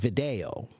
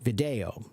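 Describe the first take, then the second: First: It is said with the classical Latin pronunciation. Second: It is said with the classical Latin pronunciation.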